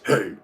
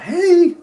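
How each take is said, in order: First: The greeting sounds curt and full of attitude. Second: The greeting sounds warm and sweet. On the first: The teacher is unfriendly. "some teachers they be having an attitude like" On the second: The teacher is friendly. "with a sweet voice"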